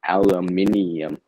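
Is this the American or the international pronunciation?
international. It is said the international way. "for my uh, international audience"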